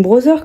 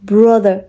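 First: English brand name said with a French accent; French-accented "brother", th turned to z. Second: English word in an American accent; put-on American accent on "Brother". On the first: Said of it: "je vais juste prendre l'accent français". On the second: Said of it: "j'ai envie de parler avec l'accent". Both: Shown as a demonstration.

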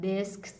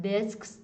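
No difference in how they are said.

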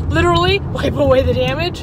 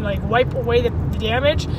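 First: Louder, with a laugh on LITERALLY; laughing emphasis. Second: Said in the usual way. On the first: Real, not acted. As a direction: hit "Literally" and laugh through the rest. Repeats the phrase, laughing.

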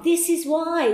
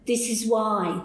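First: Higher, louder proud declaration; emphatic repeat. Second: Said in the usual way. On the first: Retold or imitated. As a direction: hammer it home the second time. Repeated declaration while writing.

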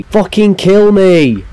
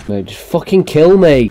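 First: Despairing plea, louder. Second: Said in the usual way. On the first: Real, not acted. Gamer begging to die.

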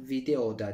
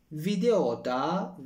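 First: Said in the usual way. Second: Slow stressed take. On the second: Shown as a demonstration.

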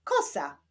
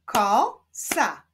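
First: Said in the usual way. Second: KO, pause, SA; syllable by syllable. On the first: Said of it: "Powstaną z nich wyrazy". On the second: Shown as a demonstration. Teacher continuing the syllable exercise, Ko-sa split apart. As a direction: break "Kosa" into Ko and sa. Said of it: "łączmy sylaby".

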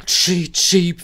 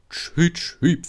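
First: High, loud imitated train toot; louder engine whistle. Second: High imitated train toot; engine whistle. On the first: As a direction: blast it like a big engine's whistle. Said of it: "pfiff Henry". (hohes, lautes Lokpfeifen) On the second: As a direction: peep like a small engine's whistle. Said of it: "pfiff Edward". (hohes Pfeifen einer Lok) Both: A narrator's reading.

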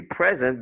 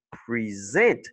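First: "present" stressed on the first syllable, PREZ-ent. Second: "present" drawn out, stressed pre-ZENT; stress on second syllable. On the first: Teacher showing learners the noun for a gift, first-syllable stress on "present". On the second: Teacher showing learners the verb, second-syllable stress on "present". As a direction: lean slowly on the end of "present", pre-ZENT. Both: Shown as a demonstration. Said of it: "La deuxième syllabe est accentuée".

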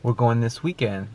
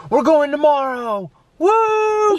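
First: Said in the usual way. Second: High, drawn-out celebratory cry; acted-out squeal of excitement, ending in a woo; excited announcement. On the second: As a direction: break the big surprise, whooping. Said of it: "we're gonna be like".

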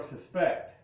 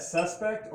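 First: Suspect as the verb, stress on PECT. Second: Suspect as the noun, stress on SUS. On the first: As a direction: say suspect with the second syllable stressed, sus-PECT. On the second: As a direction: say suspect with the first syllable stressed, SUS-pect. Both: Shown as a demonstration. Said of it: "is that suspect or suspect".

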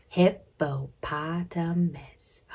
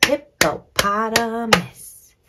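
First: "Hippopotamus" slow and even, lower-key; slow, separated HIP-PO-POT-A-MUS; counting syllables. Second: "Hippopotamus" slow in five firm beats; emphatic, slow HIP-PO-POT-A-MUS; clapped-out syllables. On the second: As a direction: punch each syllable of "Hippopotamus". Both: Shown as a demonstration. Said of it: "Let's clap it out".

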